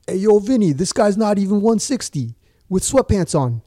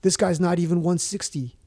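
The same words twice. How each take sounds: First: Loud, high Italian-American wiseguy imitation; mock Italian accent. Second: Higher-pitched quoted objection; lightly acted disbelieving official, no accent; mock weigh-in official. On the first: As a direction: call out in a hammed-up Italian accent. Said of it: "if I could do an Italian accent". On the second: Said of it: "they were like".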